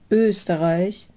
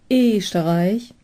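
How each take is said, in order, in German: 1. Standarddeutsch, beginnend mit gerundetem ö. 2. Pfälzischer Dialekt, beginnend mit ungerundetem e.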